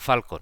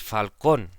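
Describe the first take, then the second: First: The stress is on the first syllable. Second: The stress is on the second syllable.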